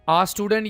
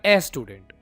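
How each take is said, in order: First: The article is a short 'uh' vowel. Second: The article is a full 'ay' vowel. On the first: The speaker calls it right. "आप बोलेंगे आ" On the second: The speaker calls it wrong. "आप इसको ए नहीं बोलेंगे"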